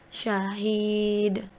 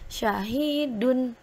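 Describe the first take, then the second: First: The word ends on a bare d sound. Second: The word ends with an -un sound. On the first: The reading stops at this word. "ketika wakof harus dibaca syahid" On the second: The reading continues without stopping. "yang awalnya bacaannya syahidun"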